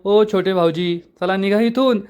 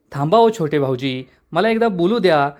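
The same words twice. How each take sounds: First: A touch of angry mimicry, pitch lifted; mocking angry echo. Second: Said in the usual way. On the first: A narrator's reading. Panya mocking Payal's words to send her off, annoyed. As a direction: throw her polite words back at her, annoyed. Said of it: "पाण्यात चिडून म्हणतो". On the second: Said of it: "तर पायल म्हणते".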